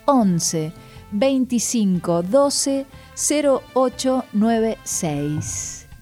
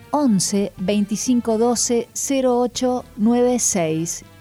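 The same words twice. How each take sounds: First: The number is said slowly, with pauses. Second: The number is said at normal speed.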